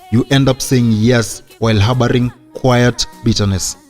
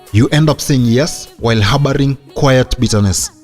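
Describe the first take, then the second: Both takes have the same delivery.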